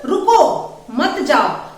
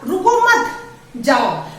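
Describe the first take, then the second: First: There is a pause after the first word. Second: There is a pause after the second word.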